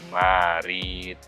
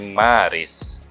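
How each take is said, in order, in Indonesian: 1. Kata itu berakhir dengan bunyi t. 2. Kata itu berakhir dengan bunyi s. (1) "bukan Marit" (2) "tapi Maris"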